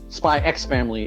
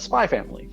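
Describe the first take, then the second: First: The X is spoken aloud between the words. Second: The X is silent between the two words. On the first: The speaker calls it wrong. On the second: The speaker calls it right.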